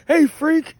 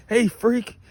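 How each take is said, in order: First: Much higher, louder imitated yell of "Hey, freak!"; hammed-up drill instructor shout. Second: A light hint of the drill instructor; fond echo of the catchphrase. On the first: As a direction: shout it at a recruit who's messing up. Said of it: "his favorite phrase when you were fucking up". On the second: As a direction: fondly mimic the old catchphrase. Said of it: "I love that".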